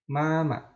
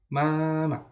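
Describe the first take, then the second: No difference in how they are said.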